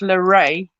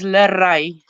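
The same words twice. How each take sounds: First: The R is not rolled. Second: The R is rolled. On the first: This is how English speakers say the name. The speaker calls it wrong. "for English speaking people, it's Lerai because they can't say the R properly" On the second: This is the name in the speaker's own language. The speaker calls it right. "I'm going to pronounce it in my language first"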